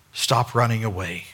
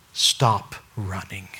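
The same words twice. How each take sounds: First: Said in the usual way. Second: Slow, hushed plea; slow whisper. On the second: Acted. Preacher urging listeners, slow whisper. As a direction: whisper it slowly, pleading.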